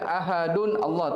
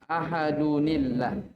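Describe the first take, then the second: First: The words stay separate with no linking sound. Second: The words are joined by an added 'ni' sound. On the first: The speaker calls it wrong. "tidak bisa dibaca ahadun Allah" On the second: The speaker calls it right. "tanwinnya dirubah menjadi nun kasroh"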